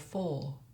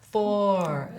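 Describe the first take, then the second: First: The final R sound is left silent. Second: The final R sound is clearly pronounced. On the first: "in British and Australian English, we would just go four. It's a silent four" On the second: "in American, American English, you would go four"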